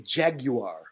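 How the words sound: It is said with a British accent. "British actually say jaguar"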